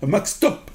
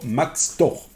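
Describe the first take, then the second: First: "Mac Stop" said high and clear as the correction; corrected name. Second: "Mac Store" said as the mistaken name; wrong name. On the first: Shown as a demonstration. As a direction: correct yourself: "Mac Stop" ending in a crisp p. (se reprend : "Mac Stop", bien net sur le p) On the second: Real, not acted. (dit "Mac Store" par erreur) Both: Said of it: "pas Mac Store".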